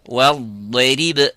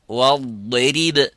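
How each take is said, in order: Both takes have the same delivery.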